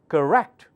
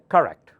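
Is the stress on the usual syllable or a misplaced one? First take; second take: usual; misplaced. First: The stress falls on the usual syllable. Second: The stress falls on a misplaced syllable. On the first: The speaker calls it right. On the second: The speaker calls it wrong.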